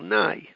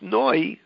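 First: The vowel is an 'ah' sound (patach). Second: The vowel is an 'oh' sound (kamatz). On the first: The speaker calls it wrong. "they want a patach" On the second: The speaker calls it right. "ending with noi, with a kamatz"

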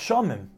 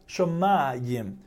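First: The word is said with two syllables. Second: The word is said with three syllables. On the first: This is how the letters read with no implied Aleph. "you would normally read that word ... as Shomim" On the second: This is read as if an Aleph were there. "we read it ... as if there was an Aleph"

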